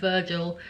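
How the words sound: The name is said with an English accent. The speaker calls it wrong. "if I was reading it in my accent"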